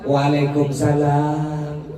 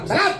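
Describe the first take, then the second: First: The reply is spoken gently and softly. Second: The reply is spoken curtly and sharply.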